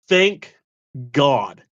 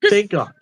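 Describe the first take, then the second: First: It is said slowly. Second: It is said fast.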